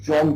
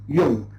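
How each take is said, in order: First: The name is said with an English pronunciation. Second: The name is said with a German pronunciation. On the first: The speaker calls it wrong. "So the name is not an English name. So you can't say Jung" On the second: The speaker calls it right. "So it is a German uh, name"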